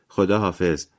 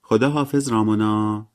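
First: Said in the usual way. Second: Slow, higher drawled goodbye; lingering, sing-out goodbye; drawn-out. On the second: A narrator's reading. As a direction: stretch the farewell out long and high. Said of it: "مری جین با صدای کشداری گفت".

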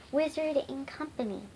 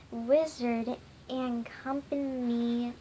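First: "Wizard and Company" said briskly; quick reading. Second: "Wizard and Company" drawn out slowly; slow reading. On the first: Wizard offering a club name, quickly. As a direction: run "Wizard and Company" together fluently. Rereads the name more fluently. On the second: Wizard trying out a club name, slowly. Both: A narrator's reading.

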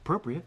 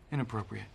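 First: "Appropriate." with a lifted, positive tone; upbeat take. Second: "Inappropriate." dropped low and serious; grave take. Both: Shown as a demonstration. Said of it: "You see?".

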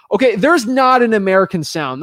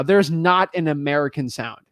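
First: Firm and louder, leaning on "there's"; insistent correction, punching "there's"; emphatic. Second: Said in the usual way. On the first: Real, not acted. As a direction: hammer home "there's not an American sound". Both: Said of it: "That's the one thing I can tell you right now".

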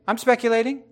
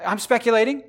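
Both takes have the same delivery.

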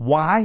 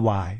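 First: "Why" with a strong English pitch glide; correct English pronunciation. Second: "Why" as a level Thai syllable; wrong Thai-style pronunciation. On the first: Teacher correcting learners, English why. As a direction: stress "Why" and bend the pitch. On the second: Teacher showing what it is not, Thai-style why. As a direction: say "Why" evenly, without English stress. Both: Shown as a demonstration. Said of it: "Why ไม่ใช่ Why".

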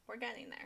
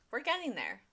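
First: Quiet. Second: Said in the usual way. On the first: Real, not acted.

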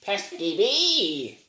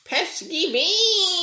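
First: Slow, high squawk; bird impression. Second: Very high, slow laughing squawk; shrill bird voice. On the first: Quoting the bird from Don't Hug Me, slow squawk. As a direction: squawk it out slowly like the puppet bird. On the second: Retold or imitated. Teasing the cohost with the bird's line, laughing squawk. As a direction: squawk it even higher while laughing. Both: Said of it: "the bird from Don't Hug Me".

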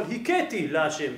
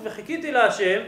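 First: הכיתי with a breath "h" replacing the het; slow, lower הכיתי, opening on a soft "h". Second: Said in the usual way. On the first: Shown as a demonstration. Teacher showing the blasphemous slip in the verse, הכיתי with "h". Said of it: "שמבטא חטא, כמו ה'". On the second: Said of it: "וכן במי שמבטא חטא".

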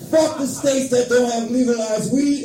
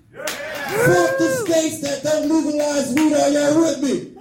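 First: Said in the usual way. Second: High, slow, drawn-out rallying yell; crowd-rousing shout. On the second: Real, not acted. Comic rallying the audience about weed, slow shouted chant. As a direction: stretch it out and rouse the room.

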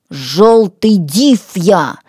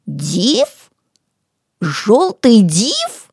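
First: Slow, drawn-out ДИВ, falling firmly; menacing declaration. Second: Slow questioning echo, ДИВ rising; drawn-out sceptical query, no fear; unafraid, incredulous. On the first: Acted. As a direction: announce yourself ominously as the demon. Threatening self-introduction as a demon. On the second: A narrator's reading. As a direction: repeat it as a doubting question. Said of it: "нисколько не испугавшись".

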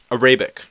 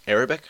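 First: Said in the usual way. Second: "Arabic?" with a small questioning rise. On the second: Real, not acted. Vlogger double-checking the language name, rising question. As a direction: ask "Arabic?" back to yourself, checking the word.

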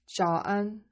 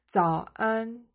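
First: 早 begun with a J sound, like "jao"; mistaken J sound. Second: 早 begun with a Z sound, like "zao"; corrected Z sound. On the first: Teacher slips on the morning greeting, 早 with a J sound. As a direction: say 早安 with J in place of Z on 早. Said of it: "早 is a J sound". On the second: Teacher corrects the morning greeting, 早 with a Z sound. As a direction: say 早安 clearly with a Z onset on 早. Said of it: "it's a Z sound". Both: Shown as a demonstration.

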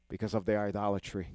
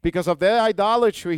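First: Said in the usual way. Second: Higher and louder preaching emphasis; "idolatry" hammered home loud; forceful repeat. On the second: Shown as a demonstration. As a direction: proclaim "Because of their idolatry" with force. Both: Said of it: "repeated louder".

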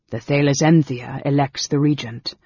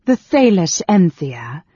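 First: Said in the usual way. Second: Slow, loud, incredulous query; loud disbelief, drawn out; scornful echo. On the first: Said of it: "He was calm". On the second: A narrator's reading. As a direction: throw the name back with scorn. Queen scornfully echoes the senator.

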